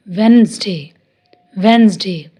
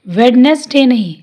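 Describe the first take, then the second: First: वेडनेसडे as wenzday; वेडनेसडे with the d left out, the right way; correct pronunciation. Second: वेडनेसडे with the d and middle e sounded; वेडनेसडे sounding every letter, the mistake; wrong pronunciation. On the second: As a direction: say वेडनेसडे as wed-nes-day, spelled out. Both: Shown as a demonstration.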